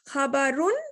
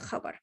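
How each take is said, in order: First: The word ends with a final '-un' syllable. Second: The word ends without the final '-un' syllable. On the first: The reader continues without stopping. "I can read the case ending" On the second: The reader stops at this word. "or I can just say khabar"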